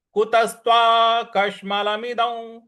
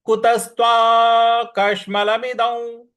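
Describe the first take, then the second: First: Said in the usual way. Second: कुतस्त्वा कश्मलमिदं slow, higher and louder; recitation model. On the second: Shown as a demonstration. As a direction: chant कुतस्त्वा कश्मलमिदं deliberately. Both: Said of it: "इस प्रकार से बोलेंगे".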